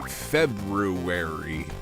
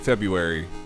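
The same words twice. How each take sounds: First: The word is said fully, sounding every letter. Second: The word is said quickly in a shortened form. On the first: This helps in spelling the word out loud. "if I'm like spelling it out, um, I say February" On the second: This is the everyday way of saying it. "I usually just say February"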